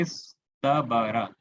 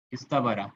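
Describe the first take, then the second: First: इस तबारा drawn out slowly syllable by syllable; teacher slowly sounding out इस तबारा; slow spelling-out. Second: Said in the usual way. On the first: Shown as a demonstration. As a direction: stretch each sound of इस तबारा for students. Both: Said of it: "ये word, word क्या देख रहे हैं".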